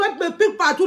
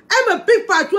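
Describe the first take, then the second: First: Said in the usual way. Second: High, loud complaint; higher and louder than the repeat; indignant outburst. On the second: Real, not acted. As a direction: blurt it out, outraged.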